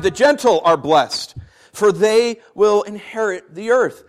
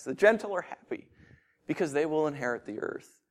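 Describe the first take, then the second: First: Said in the usual way. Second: "The gentle are happy" said much softer, lingering and tender; soft, savoring. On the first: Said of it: "that sounds nice". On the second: Shown as a demonstration. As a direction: murmur "inherit the earth" gently, as if tasting it. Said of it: "This sounds so good".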